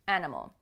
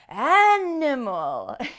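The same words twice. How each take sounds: First: The first syllable is stressed in a normal way. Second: The first syllable is stressed very strongly. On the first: "say it in a natural way" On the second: "really stress that stressed syllable so that you get in the habit of saying it in a very powerful way"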